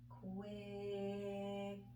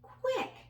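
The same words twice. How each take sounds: First: The word is said slowly, sounds drawn out. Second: The word is said quickly as one unit. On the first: "Now let's blend it" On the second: "Now let's say it fast"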